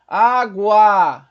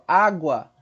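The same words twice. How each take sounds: First: "Água" loud with both A sounds held long; loud, drawn-out "Água" to show the strong A; sustained A. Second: Said in the usual way. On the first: Shown as a demonstration. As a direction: stretch "Água" into á-guaaa. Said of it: "Observa como se sustenta o A". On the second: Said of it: "Quantas sílabas?".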